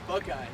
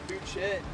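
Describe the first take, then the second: First: The name ends with an 'eye' sound. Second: The name ends with a 'shet' sound. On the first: The speaker calls it right. "but I guess it's called Buckeye" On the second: The speaker calls it wrong. "I used to call it Bouchette"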